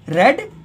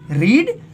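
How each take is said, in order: First: The vowel is a short e sound. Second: The vowel is a long ee sound. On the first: It is the past form of the verb. "Second form रेड pronounce" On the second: It is the base form of the verb. "First form रीड pronounce"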